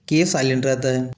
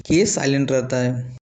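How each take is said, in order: Both takes have the same delivery.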